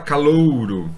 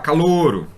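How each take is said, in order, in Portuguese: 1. O ditongo ou é pronunciado por completo. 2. O ditongo ou é reduzido a uma vogal. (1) "a pessoa não fala" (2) "a pessoa vai falar"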